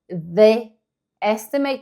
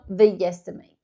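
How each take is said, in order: First: The words are separated by a small break. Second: A soft y sound joins the two words. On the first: The speaker calls it wrong. "se eu tô falando mais pausadamente porque eu estou quebrando sons" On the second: The speaker calls it right. "eu coloco um Yzinho antes"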